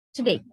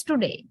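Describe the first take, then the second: First: TODAY as t'day, first vowel reduced to a schwa; quick unstressed syllable. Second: TODAY as too-day with a full "oo"; fully pronounced first syllable. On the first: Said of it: "they quickly say it like". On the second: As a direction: give both syllables of TODAY their full vowels. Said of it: "But for us, it is". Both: Shown as a demonstration.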